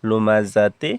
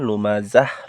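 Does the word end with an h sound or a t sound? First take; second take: t sound; h sound. First: The word ends with a 'ti' sound. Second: The word ends with an 'h' sound. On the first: The reading continues without stopping. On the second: The reader stops at this word.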